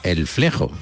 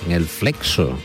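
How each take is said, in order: First: The x is pronounced as a throaty j sound. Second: The x is pronounced as ks.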